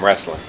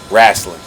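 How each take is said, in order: First: It is said in the speaker's normal accent. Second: It is said in a Southern US accent.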